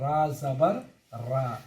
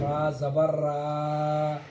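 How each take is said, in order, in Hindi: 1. अंतिम स्वर छोटा रखा जाता है। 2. अंतिम स्वर खींचकर लंबा पढ़ा जाता है। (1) "मिसाल के तौर पर" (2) "अगर हम खींच कर पढ़ेंगे"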